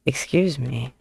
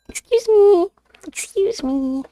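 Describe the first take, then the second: First: Said in the usual way. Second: Very high-pitched mock indignation; squeaky playful scolding. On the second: Streamer tells off terror of a cat, squeaky scolding. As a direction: squeal it in tiny pet-talk falsetto.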